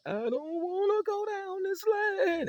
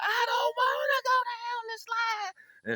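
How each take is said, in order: First: Whiny little brother. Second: High, slow wailing cry; a scared kid howling his refusal; crying little brother. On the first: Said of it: "he started off real low". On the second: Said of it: "it got louder and louder". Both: Retold or imitated.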